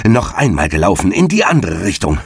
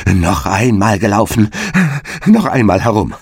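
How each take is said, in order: First: Out-of-breath hare's mild shout; lightly acted racer's cry; calling out. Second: Panting, panicky storybook shout; winded hare's desperate yell; frightened cry. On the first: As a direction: demand it between puffs. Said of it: "rief er". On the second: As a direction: cry out, beside yourself with fear. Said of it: "außer sich vor Furcht und schrie". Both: A narrator's reading.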